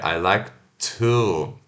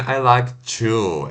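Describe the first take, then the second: First: The word 'to' begins with a plain t. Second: The word 'to' begins with a ch sound. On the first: The speaker calls it right. "é I like to, é diferente" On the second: The speaker calls it wrong. "não é I like chu"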